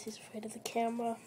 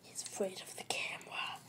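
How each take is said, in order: First: Said in the usual way. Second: Whisper. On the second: Real, not acted. Hamster shy of the camera.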